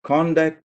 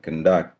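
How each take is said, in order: First: The stress is on the first syllable. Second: The stress is on the second syllable. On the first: It is a noun meaning behaviour or management. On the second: It is a verb meaning to carry out.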